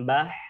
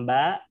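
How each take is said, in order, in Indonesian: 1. Ba berakhir dengan tambahan h berdesah. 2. Ba dipotong dengan hentian glotal. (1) "tidak ditambahkan dengan huruf ha ... bukan bah" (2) "Tidak ditahan dengan huruf hamzah ... Bukan ba"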